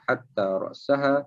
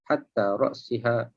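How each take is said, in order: First: The second word has an a sound after s. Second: The second word has an i sound after s. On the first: "dengan atas" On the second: "dengan bawah"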